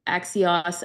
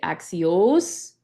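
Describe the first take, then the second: First: Axios ending in an open "-oss"; short-o ending. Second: Axios ending in a long, rising "-ohs". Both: Shown as a demonstration. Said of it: "so you're gonna make it axios".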